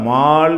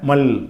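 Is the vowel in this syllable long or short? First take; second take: long; short. First: The vowel is held long. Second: The vowel is cut short. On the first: The speaker calls it wrong. "மால் என்று சொல்லாமல்" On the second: The speaker calls it right. "நீட்டுற அலிஃபை விட்டுறணும்"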